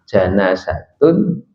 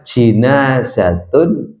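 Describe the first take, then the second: First: The first vowel is an a sound. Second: The first vowel is an i sound. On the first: It means a dead body. "Kalau dibaca fathah" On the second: It means the bier for carrying a body. "Kalau dibaca jinazatun"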